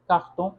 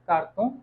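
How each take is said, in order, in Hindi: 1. r एक गुटरल, गले से निकलने वाली आवाज़ है। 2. r एक सादी, सरल आवाज़ है।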